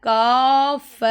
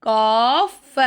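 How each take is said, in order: No difference in how they are said.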